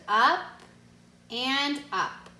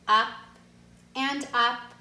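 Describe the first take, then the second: No difference in how they are said.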